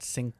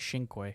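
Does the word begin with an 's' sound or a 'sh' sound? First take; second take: s; sh. First: The word begins with an 's' sound. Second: The word begins with a 'sh' sound. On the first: The speaker calls it wrong. "It's definitely not sink sinky or however it's, it looks" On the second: The speaker calls it right. "Italian people were like saying"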